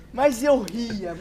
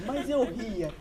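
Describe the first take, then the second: First: "Mas eu ria" drawn out slowly, leaning on eu; slow emphatic. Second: Said in the usual way. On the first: Shown as a demonstration. ("Mas eu ria" bem lento, com ênfase no eu)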